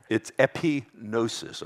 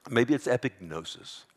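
First: "epignosis" sounded out as epi-nosis, the g dropped; silent-g pronunciation. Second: "epignosis" as epig-nosis, a hard stop before NO; hard-g pronunciation. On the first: Preacher trying out a Greek word, "epignosis" with a silent g. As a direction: say "epignosis" with no g sound, eh-pee-NO-sis. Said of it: "if I'm pronouncing it right". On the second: Preacher offering another try at the Greek, "epignosis" with the g sounded. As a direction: say "epignosis" with the g sounded, eh-pig-NO-sis. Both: Shown as a demonstration.

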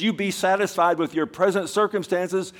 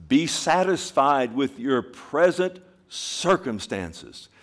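First: High loud preaching. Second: Slow emphatic reading. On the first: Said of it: "repeat louder". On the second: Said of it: "reading scripture slowly". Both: Shown as a demonstration.

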